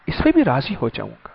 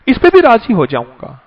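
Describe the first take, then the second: First: Softer and quicker, dropping away; soft repeat. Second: Said in the usual way. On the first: Shown as a demonstration. Preacher echoing God's promise softly to congregation. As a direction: let the promise fall soft and fast.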